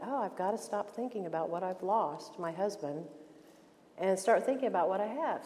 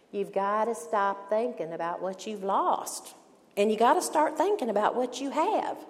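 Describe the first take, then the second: First: Said in the usual way. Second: Put-on Atlanta accent. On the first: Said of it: "And I thought". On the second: Mentor advising a grieving friend, in an Atlanta accent. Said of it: "in her Atlanta accent".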